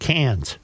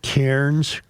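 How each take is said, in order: First: The name sounds like 'cans', without an r. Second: The name sounds like 'cairns', with an r. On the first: The speaker calls it right. "it's pronounced Cairns" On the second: The speaker calls it wrong. "I pronounce it Cairns"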